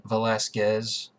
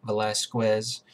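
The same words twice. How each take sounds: First: Said in the usual way. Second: Velasquez with a w sound, ending "-skwez"; alternative pronunciation. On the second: Shown as a demonstration. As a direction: say Velasquez as "vuh-LASS-kwez". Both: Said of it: "or as some folks say".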